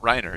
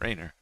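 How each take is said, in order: First: The first syllable sounds like Rhine. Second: The first syllable sounds like rain. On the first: The speaker calls it wrong. "It's not Rainer, Not like the Rhine river" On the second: The speaker calls it right. "it's Rainer. It's like rain"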